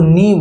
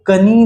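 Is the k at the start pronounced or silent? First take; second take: silent; pronounced. First: The k is silent; the word starts with n. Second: The k sound is pronounced before the n. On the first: The speaker calls it right. "उसको नी बोलते हैं" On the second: The speaker calls it wrong. "उसको कनी नहीं बोलते"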